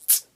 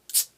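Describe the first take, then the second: First: The ts is quick, snapped and hard. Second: The same.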